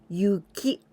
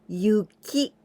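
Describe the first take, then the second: The two takes are said the same way.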